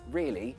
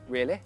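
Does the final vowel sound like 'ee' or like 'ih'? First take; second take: ee; ih. First: The final vowel is a long ee sound. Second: The final vowel is a short ih sound. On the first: "change an E sound to an I sound" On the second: "if it's very posh, they usually tend to change an E sound to an I sound"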